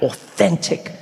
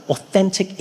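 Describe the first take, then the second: First: "authentic" set apart, drawn out and rising; stress on authentic. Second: Said in the usual way. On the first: Shown as a demonstration. Comedian clarifying his restaurant choice, "authentic" drawn out emphatically. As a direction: stretch "authentic" with weight on the middle syllable. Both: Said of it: "Like, I mean, like, authentic".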